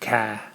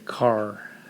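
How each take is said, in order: First: The final R sound is dropped. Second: The final R sound is pronounced. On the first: "In Boston, they say ca" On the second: "they don't say car"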